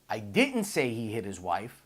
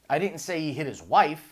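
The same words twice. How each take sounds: First: The word "didn't" carries the stress. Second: The word "wife" carries the stress.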